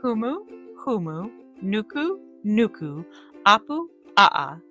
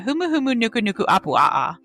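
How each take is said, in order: First: The name is said slowly, in separated chunks. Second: The name is said at normal speed, all together.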